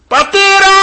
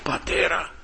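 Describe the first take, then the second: First: Loud, high, drawn-out cry to the Father. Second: Much softer call to the Father; hushed repeat. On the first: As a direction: call out desperately at the top of the voice. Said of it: "Φώναζε". (δυνατή κραυγή ικεσίας) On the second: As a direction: let the cry drop to a quiet plea. (χαμηλόφωνη επίκληση) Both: Acted.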